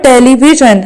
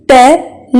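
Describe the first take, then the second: First: Said in the usual way. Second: "Television" as te, le, vi, sion, with pauses; four separate beats in "Television"; split into syllables. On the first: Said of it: "How many syllables are there". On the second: Shown as a demonstration. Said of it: "There are four syllables".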